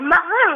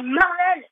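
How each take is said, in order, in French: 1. Il est prononcé avec un accent anglais. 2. Il est prononcé avec un accent français. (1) "c'est quoi cet accent anglais? On dit pas Marvel" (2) "on dit Marvel. On est quand même en France"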